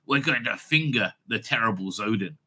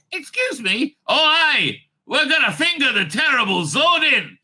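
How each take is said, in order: First: Low, understated announcement; the Doctor. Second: Very enthusiastic, loud and high; Jamie. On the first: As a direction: drop low and say it matter-of-factly. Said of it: "if the Doctor turned around and says". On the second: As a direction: jump in with eager, raised-voice delight. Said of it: "said Jamie. Very, very, you know, uh, enthusiastically". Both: Acted.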